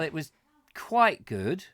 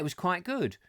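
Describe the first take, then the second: First: The tone is lukewarm and unimpressed. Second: The tone is warm and positive. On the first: The meal was disappointing. "it has a completely the opposite meaning" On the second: The meal was enjoyed. "it sounds positive"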